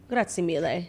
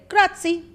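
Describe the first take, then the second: First: Grazie mille as "GRAH-tsee MEE-leh", softer and lower; Italian pronunciation. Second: Grazie as "GRAH-tsee", high and bright; Italian pronunciation. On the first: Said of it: "if you really mean it". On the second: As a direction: show off saying grazie the Italian way. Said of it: "I know how to say". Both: Shown as a demonstration.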